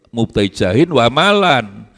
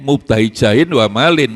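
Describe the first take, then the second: First: The last word ends with an 'an' sound. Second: The last word ends with an 'in' sound. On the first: The word is read in the accusative case. "diwaca nasab boleh, fathah" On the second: The word is read in the genitive case. "diwaca jer boleh, kasroh"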